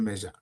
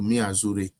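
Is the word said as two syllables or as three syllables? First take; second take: two syllables; three syllables. First: It is said as normal two-syllable 'measure'. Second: It is split into 'mi' plus 'azure'. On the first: The speaker calls it right. "A yɛnim sɛ ɛyɛ measure" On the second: The speaker calls it wrong. "ɔsɛ mi azure"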